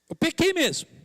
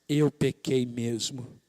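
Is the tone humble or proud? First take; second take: proud; humble. First: It is said in a proud, boastful tone. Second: It is said in a humble, repentant tone.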